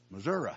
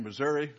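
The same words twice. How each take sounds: First: Missouri with the ending as uh, Missour-uh; Southern Missouri. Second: Said in the usual way. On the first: Retold or imitated. Preacher imitating Ron's Southern Missouri, ending uh. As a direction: drop the ee, say Missour-uh. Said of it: "what would he say?". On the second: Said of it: "instead of saying Missouri".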